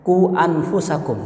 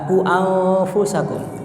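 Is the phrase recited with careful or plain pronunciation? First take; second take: plain; careful. First: It is recited plainly, without drawn-out sounds. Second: It is recited with careful, drawn-out sounds. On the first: "ketika baca tafsir mereka nggak baca tajwidnya"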